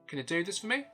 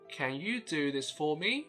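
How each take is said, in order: First: The small words are reduced to schwa. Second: The small words keep their full vowels. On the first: "native speakers tend to say it like" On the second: "when I was a primary school student, I would probably read it like"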